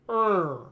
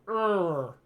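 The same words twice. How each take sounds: First: The sound is tight and pressed, like a consonant. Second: The same.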